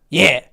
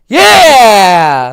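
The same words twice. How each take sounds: First: It is said flat and unenthusiastic. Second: It is said loud and enthusiastic.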